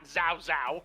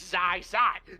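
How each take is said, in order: First: The name is said with an 'ow' vowel. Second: The name is said with an 'eye' vowel. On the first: The speaker calls it wrong. "It's not Zao Zao" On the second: The speaker calls it right. "It's Zai Zai"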